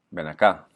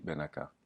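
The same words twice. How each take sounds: First: Acá said with the stress on the final á; stress on last syllable. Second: Ven stressed instead of the final á of acá; wrong stress. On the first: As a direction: land the stress hard on the end of acá. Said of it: "on accentue le «i» ou le «a»". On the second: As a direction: put the weight on Ven and leave acá unstressed. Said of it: "Et pas". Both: Shown as a demonstration.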